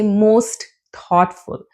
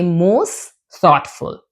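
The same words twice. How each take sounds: First: The t at the end of most is pronounced. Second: The t at the end of most is dropped. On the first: The speaker calls it wrong. "We don't say most thoughtful" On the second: The speaker calls it right. "We say most thoughtful"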